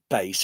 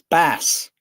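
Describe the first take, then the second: First: The word sounds like 'base'. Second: The word does not sound like 'base'. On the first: The speaker calls it wrong. "It's not bass, I keep thinking it's like a moon base" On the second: The speaker calls it right. "it's bass"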